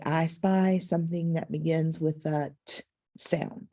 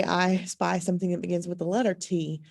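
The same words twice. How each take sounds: First: "t" as a short puff of the tongue, no vowel; letter sound T. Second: "T" pronounced like the word tea; letter name T. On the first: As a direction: say "t" as a bare consonant sound, not the letter name. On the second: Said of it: "Do not say". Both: Shown as a demonstration.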